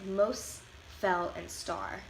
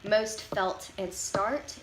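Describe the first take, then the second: First: "mos', fell and star" with no closing t; final T dropped. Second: Said in the usual way. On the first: Shown as a demonstration. Presenter showing Chicano English, "most fell and star" without final t. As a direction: leave the t off "most", felt and start. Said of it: "T sounds are left out". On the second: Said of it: "if you were saying the words".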